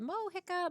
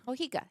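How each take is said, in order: First: Mohica with a short i, as in "hick"; tentative pronunciation. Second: Mohica with a long ee, "mo-HEE-ka"; corrected pronunciation. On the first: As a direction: say Mohica unsurely, middle like "hick". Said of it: "we'll just say called Mo here". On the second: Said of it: "Probably Mohica". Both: Real, not acted.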